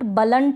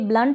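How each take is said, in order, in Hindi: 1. b और l के बीच एक छोटा स्वर डाला जाता है। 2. b और l एक साथ जुड़े हैं, बीच में कोई स्वर नहीं है। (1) "बलंट ना पढ़ें" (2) "इसको पढ़ेंगे ब्लंट"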